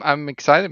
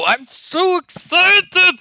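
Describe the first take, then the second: First: It is said in a flat, unexcited tone. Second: It is said with loud, lively excitement.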